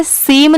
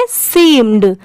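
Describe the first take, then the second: First: सीम ending on m; सीम as the bare verb; without final d. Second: सीम्ड with a clear d after the m; low, falling seem-d for सीम्ड; final d sounded. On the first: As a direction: leave the d off सीम. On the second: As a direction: finish सीम्ड on an audible d. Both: Shown as a demonstration. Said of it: "सिर्फ इसे सीम नहीं पढ़ेंगे".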